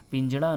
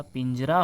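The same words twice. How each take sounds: First: पिंजड़ा with retroflex flap; hard flap ending पिंजड़ा; incorrect pronunciation. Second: पिंजरा with plain R; straight-tongued R in पिंजरा; correct pronunciation. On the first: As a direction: say पिंजड़ा with curled-tongue Ṛ. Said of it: "नहीं होता". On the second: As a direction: say पिंजरा as "pinjra", tapped R. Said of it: "पिंजरा होता है". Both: Shown as a demonstration.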